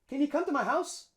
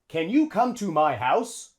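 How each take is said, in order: First: The word you has a short schwa vowel. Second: The word you has a long, full vowel. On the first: The speaker calls it right. "A native English speaker would probably say" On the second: The speaker calls it wrong. "Native English speaker wouldn't say that. It's too long"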